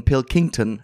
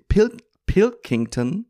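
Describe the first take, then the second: First: "Pilkington" with the weight on -king-, falling; "Pilkington", falling tune, second syllable punched; stress on King. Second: Slow, high "Pil-, Pilkington" sounded out syllable by syllable; "Pilkington" said carefully, stretched and pitched up; careful pronunciation. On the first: Retold or imitated. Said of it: "er geht auf das King". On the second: Shown as a demonstration. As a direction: spell out "Pilkington" slowly. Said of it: "dieser Carl Pink".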